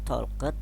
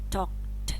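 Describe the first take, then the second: First: The ending adds an extra syllable after k. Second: The ending is a plain t sound. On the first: The speaker calls it wrong. "bacanya bukan talket" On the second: The speaker calls it right. "Dibaca akhiran t"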